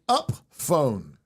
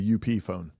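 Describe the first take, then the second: First: Up is said as one ordinary word. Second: Up is spelled out as two separate letters. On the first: "Is that how you pronounce it?" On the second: "Or is it the U P phone?"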